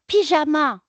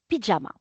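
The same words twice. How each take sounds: First: It is pronounced the French way. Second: It is pronounced the English way. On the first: "en français" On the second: "la prononciation anglaise"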